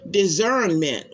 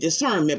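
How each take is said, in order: First: The middle consonant is a buzzing Z sound. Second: The middle consonant is a hissing S sound. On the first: "with a Z" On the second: "I've always known it to be"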